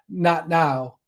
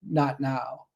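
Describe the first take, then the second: First: It is said more loudly. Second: It is said softly and quietly.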